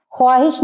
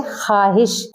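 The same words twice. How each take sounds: First: ख्वाहिश with the w said, khwaahish; w sounded. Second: ख्वाहिश said khaahish, no w; silent w. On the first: Teacher showing the wrong reading with the w sounded. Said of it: "ख्वाहिश नहीं पढ़ेंगे". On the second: Teacher giving the right reading, w silent. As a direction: drop the w in ख्वाहिश. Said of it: "इसको पढ़ेंगे". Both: Shown as a demonstration.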